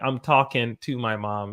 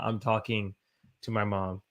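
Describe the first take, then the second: First: The ending of 'talking' is clipped to 'talkin'. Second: The ending of 'talking' is fully pronounced. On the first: This is how native speakers naturally talk. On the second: This is the official textbook way to say it.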